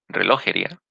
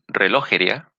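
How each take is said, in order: The two takes are said the same way.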